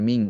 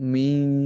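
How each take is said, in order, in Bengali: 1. শব্দটি একটি পূর্ণ, স্পষ্ট ng ধ্বনি দিয়ে শেষ হয়। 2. শব্দটি n আর ng-এর মাঝামাঝি একটি হালকা ধ্বনি দিয়ে শেষ হয়। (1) "অনুস্বার বললে তো মিং হয়ে যায়" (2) "এই দুইটার মাঝামাঝি একটা মিং"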